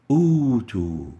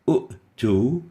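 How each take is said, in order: First: The first vowel is stretched into a long 'uu'. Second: A short vowel is followed by a glottal stop. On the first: The speaker calls it right. "the second hamza is changed into a mad waw" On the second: The speaker calls it wrong. "U will be converted into u"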